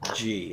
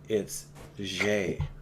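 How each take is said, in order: First: The letter sounds like English 'jee'. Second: The letter sounds like 'zhay', with a soft zh. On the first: This is the English name of the letter. "in English, of course, we pronounce it G" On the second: This is the French name of the letter.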